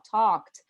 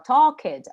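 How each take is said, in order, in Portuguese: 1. A terminação não acrescenta sílaba à palavra. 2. A terminação é pronunciada como sílaba separada. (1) "a gente fala talked" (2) "a gente não fala talked"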